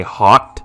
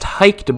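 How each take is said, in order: First: Hawked with "aw", rhyming with "talked"; Hawked pronunciation. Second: Hiked with a long "i", like "biked"; Hiked pronunciation. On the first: Gamer settles on his own pronunciation, Hawked with "aw". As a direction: pronounce Hawked with an open vowel. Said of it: "so I'm gonna say Hawked". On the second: Gamer cites a heard pronunciation, Hiked with long "i". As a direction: pronounce Hiked with an "eye" sound. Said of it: "I've heard it pronounced Hiked". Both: Shown as a demonstration.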